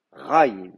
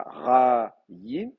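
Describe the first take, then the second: First: Ra-yim joined up, RA punched and yim falling; ra-yim as one word stressed on RA; accent on RA. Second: Ra-yim very slow, in two separate long syllables; ra-yim drawn out, open ra, then yim; split syllables. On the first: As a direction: hit ra in ra-yim and glide straight into a light yim. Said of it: "c'est le ra qui a l'accent". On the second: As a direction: pull ra-yim apart, giving yim its own weight. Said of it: "Mais là, c'est pas ra-yim". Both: Shown as a demonstration.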